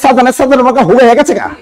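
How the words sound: It is said in a regional dialect pronunciation. "এটা হলো আঞ্চলিক পদ্ধতি"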